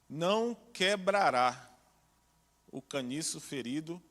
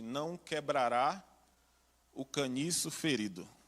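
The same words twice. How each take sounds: First: The verb quebrará is said with strong emphasis. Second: The verb quebrará gets no special emphasis.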